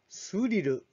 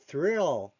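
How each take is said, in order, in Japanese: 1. 日本語のカタカナの音で発音されています。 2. 英語の音で発音されています。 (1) "日本語ではスリルですが" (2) "英語ではthrill と発音します"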